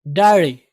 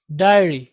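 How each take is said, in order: Both takes have the same delivery.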